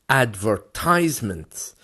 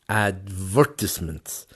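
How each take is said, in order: First: American style, stress not on second syllable. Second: British style, stress on the second syllable. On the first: "if you were in America, in the U S A, that word becomes advertisement" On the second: "the stress is going into the V"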